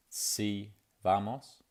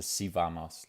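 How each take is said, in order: First: "Si vamos" drawn out slowly, rising at the end; careful Spanish "Si vamos"; Spanish phrase. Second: "Si vamos" run together almost as one word; Spanish "Si vamos" said fast as one word. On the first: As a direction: say "Si vamos" as two clear words, slow with a rise. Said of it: "you could say". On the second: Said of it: "runs out a bit more and is almost one word". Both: Shown as a demonstration.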